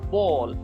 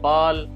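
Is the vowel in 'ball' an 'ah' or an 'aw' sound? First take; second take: aw; ah. First: The vowel is a rounded 'aw' sound. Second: The vowel is an open 'ah' sound. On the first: The speaker calls it right. "क्योंकि ये वाला sound है, ओ" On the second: The speaker calls it wrong. "हम पाकिस्तानी कहते हैं बाल"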